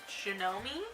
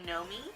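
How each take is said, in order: First: It starts with a hard G sound. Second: It starts with an N sound. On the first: The speaker calls it wrong. "I was pronouncing it like Junomi because it does have a G" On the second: The speaker calls it right. "apparently the G is silent"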